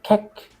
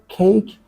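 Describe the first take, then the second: First: The vowel has no ee glide. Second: The vowel glides into an ee sound. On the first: The speaker calls it wrong. "sometimes Vietnamese people say cake. They just remove the e" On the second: The speaker calls it right. "let's say the word cake"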